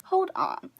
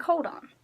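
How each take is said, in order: First: Much higher, drawn-out hold on; exaggerated stop. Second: Higher, disbelieving hold on; incredulous stop. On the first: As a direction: really stop them in their tracks. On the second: Retold or imitated. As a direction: halt them mid-sentence in disbelief. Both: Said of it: "I'm like".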